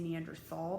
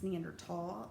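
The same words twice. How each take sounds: First: The middle consonant is a th sound. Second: The middle consonant is a plain t sound. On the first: The speaker calls it wrong. "do not say Neanderthal. That is completely wrong" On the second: The speaker calls it right. "it's Neanderthal with a T"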